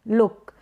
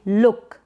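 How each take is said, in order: No difference in how they are said.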